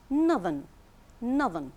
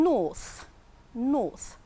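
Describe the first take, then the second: First: Northern with a buzzing th in the middle; northern with voiced th. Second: Long vowel in north, closing on th. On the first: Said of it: "Here we have the th sound". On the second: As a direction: say north with a voiceless th at the end. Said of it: "so the T H is, is pronounced with a th sound". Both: Shown as a demonstration.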